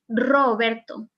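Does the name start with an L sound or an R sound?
R sound. The name starts with a trilled R sound. The speaker calls it right. "they still pronounce it Roberto"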